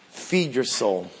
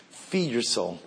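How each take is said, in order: First: Softer, low, urging gently; soft plea. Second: Much softer, almost hushed repeat; hushed plea. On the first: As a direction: lean in and urge softly. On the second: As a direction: let it fall to a near hush. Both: Acted.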